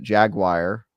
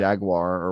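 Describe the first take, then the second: First: Jaguar said as JAG-wire; jagwire pronunciation. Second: Jaguar said as JAG-war; two-syllable jaguar. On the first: Recalling the voiceover take, jaguar as JAG-wire. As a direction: make jaguar end like "wire". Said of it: "I pronounced it jaguar". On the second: Offering the normal version, jaguar as JAG-war. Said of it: "normal people say it". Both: Shown as a demonstration.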